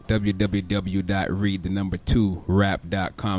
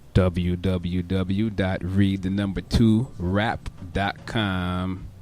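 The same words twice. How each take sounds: First: It is said at a quicker pace. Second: It is said at a slow pace.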